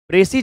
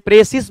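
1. इस शब्द के अंत में s की ध्वनि नहीं है। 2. इस शब्द के अंत में s की ध्वनि है। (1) "सी एस साइलेंट होता है" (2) "इसे प्रेसिस मत पढ़ना"

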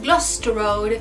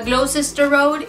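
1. Gloucester se acorta, con letras omitidas. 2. Todas las letras de Gloucester se pronuncian. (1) "ellos dicen Gloucester Road" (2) "Yo decía Gloucester Road"

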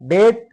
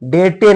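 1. शब्द t वरच स्वच्छपणे संपतो. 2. t नंतर एक अतिरिक्त स्वर उच्चारला जातो. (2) "डेटे नाही"

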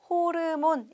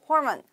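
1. 한국어 외래어 음절로 말해요. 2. 영어 발음으로 말해요. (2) "이 영어의 발음으로"

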